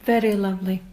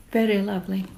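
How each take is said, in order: Both takes have the same delivery.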